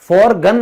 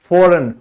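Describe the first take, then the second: First: The g sound is pronounced. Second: The g sound is silent. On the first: The speaker calls it wrong. "For गन नहीं बोलेंगे ना" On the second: The speaker calls it right. "क्योंकि ये silent है"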